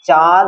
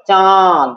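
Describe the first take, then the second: First: Said in the usual way. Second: চাঁদ with the vowel drawn out through the nose; nasal vowel. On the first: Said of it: "চাঁদ থেকে কি হবে?". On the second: Shown as a demonstration. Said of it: "নাক দিয়ে উচ্চারণ হচ্ছে". (চাঁদ নাক দিয়ে টেনে উচ্চারণ)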